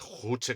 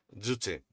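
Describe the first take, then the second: First: The word begins with a harsh throat sound. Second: The word begins with a soft y-sound. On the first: The speaker calls it wrong. "pronuncie Juche con J de jamón" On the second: The speaker calls it right. "se pronuncia Yuche"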